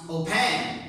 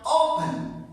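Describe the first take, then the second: First: "open" misstressed as o-PEN; stress on second syllable. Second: "open" as O-pen, strong first syllable; stress on first syllable. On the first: Teacher offering the other way to pronounce it, "open" stressed on PEN. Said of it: "or we pronounce". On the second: Teacher asking which way we pronounce it, "open" stressed on the O. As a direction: hit the O of "open" and let "pen" drop. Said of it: "first syllable is stronger". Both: Shown as a demonstration.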